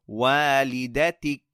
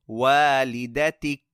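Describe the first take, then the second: No difference in how they are said.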